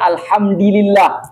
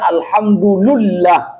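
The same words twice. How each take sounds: First: The vowel after the d is i. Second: The vowel after the d is u. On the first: "Maka dal karena ngikuti dam, mengikuti lam, makanya dibaca" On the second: "Dal apa barisnya? Dhammah, alhamdu, maka dibaca"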